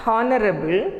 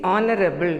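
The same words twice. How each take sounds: First: "honorable" with the h sounded; "honorable" as HON-er-able, h voiced; wrong pronunciation. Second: "honorable" starting on the vowel; "honorable" with no h at all; silent h. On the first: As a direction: say "honorable" starting on a breathed h. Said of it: "It is not honorable". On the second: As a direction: say "honorable" as ON-er-able. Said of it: "H is silent". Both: Shown as a demonstration.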